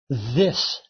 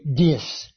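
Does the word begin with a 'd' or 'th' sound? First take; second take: th; d. First: The word begins with a 'th' sound. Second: The word begins with a 'd' sound. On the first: "can't say the TH sound" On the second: "They say dis"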